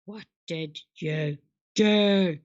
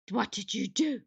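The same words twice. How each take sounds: First: Low, slow drawn-out question; distorted low slow take; slowed low voice effect. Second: Said in the usual way. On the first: Pretend.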